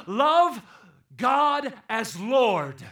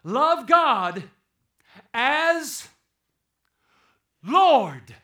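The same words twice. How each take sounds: First: Love punched high and loud, then God as Lord drawn out very slowly; stretched emphasis. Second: Love, God, as, Lord each shouted apart, Lord loudest; hammered words. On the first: Preacher expands the Greek for the church, very slow and stressed. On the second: Preacher drives the command home to the church, shouting each word. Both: Shown as a demonstration. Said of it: "he would really said it like this".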